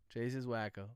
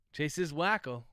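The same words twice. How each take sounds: First: Lower, softer repeat of Chase is wacko; quieter aside. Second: Said in the usual way. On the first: Shown as a demonstration. Streamer repeating a joke about Chase, softer aside. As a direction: mutter it again under the breath. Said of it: "repeated softer". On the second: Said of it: "repeated line".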